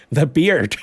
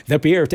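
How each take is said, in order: First: Mock dismay. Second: Says the beard through a laugh; the beard, laughing at the joke. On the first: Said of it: "They took my beard". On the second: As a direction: laugh it out while repeating the beard. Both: Real, not acted.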